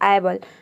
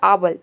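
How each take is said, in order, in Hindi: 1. पहला स्वर 'a' in cat जैसा लगता है। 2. पहला स्वर 'ah' जैसा लगता है। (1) "आपने रखा ए के जगह पे आए ... इसका प्रोनाउंसिएशन रॉन्ग है" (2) "ए को आ प्रोनाउंस कर दिया तो आबल"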